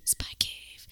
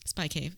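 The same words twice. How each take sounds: First: Hushed mock-mysterious whisper; spooky whisper. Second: Said in the usual way. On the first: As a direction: whisper it like a spy secret. Repeats the cave name whispered.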